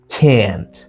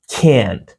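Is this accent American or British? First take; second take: American; American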